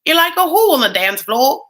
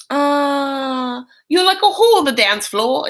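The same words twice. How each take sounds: First: Louder, higher badly faked Cockney with dropped letters; bad Cockney accent. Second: Higher, slightly louder Cockney sister voice; a bad Cockney put-on; Cockney accent. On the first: Ringtone request, badly faked Cockney accent. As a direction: overdo the Cockney and miss it. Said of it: "That's not how she says it". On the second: Sister quoted in the soundbite, mock Cockney accent. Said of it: "I am not good at this accent".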